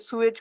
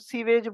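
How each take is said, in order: First: It is said the standard, non-Indian way. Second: It is said the way Indians say it.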